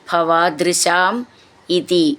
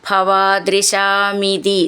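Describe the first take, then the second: First: There is a break between the two words. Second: The words are run together without a break. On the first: "നിർത്തിയിട്ട് ചൊല്ലുമ്പോൾ" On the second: "ചേർത്ത് ചൊല്ലുമ്പോൾ"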